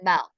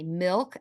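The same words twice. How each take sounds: First: The vowel sounds like the e in ell. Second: The vowel sounds like the i in ill. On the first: "M E L K" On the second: "M I L K"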